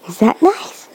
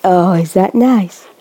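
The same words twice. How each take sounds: First: Whispered question. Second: Said in the usual way. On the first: Real, not acted. Mother asking her baby about the food, whispering.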